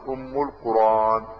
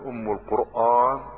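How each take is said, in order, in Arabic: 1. الهمزة في Qur'an مُسهَّلة. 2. الهمزة في Qur'an تُنطق كاملة. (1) "قال أم القرآن" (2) "بدل ما أقول أم القرآن"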